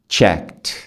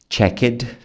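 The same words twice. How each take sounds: First: The word ends in a plain T sound. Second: The word does not end in a plain T. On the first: The speaker calls it right. "Check e depois o T" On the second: The speaker calls it wrong. "Você não fala checked"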